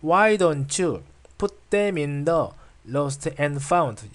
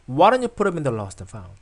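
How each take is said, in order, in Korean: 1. 모든 단어에 거의 같은 강세가 들어갑니다. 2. why, put, lost and found만 강세가 들어갑니다. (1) "이렇게 읽지 않습니다" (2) "강세 있는 부분이 Why, put, lost, found 이 부분이거든요. 연결해서 한번 읽어보겠습니다"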